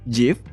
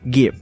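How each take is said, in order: First: It begins with a soft j sound. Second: It begins with a hard g sound. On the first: "versi pelafalan yang halus" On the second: "pelafalan dengan huruf G yang tegas"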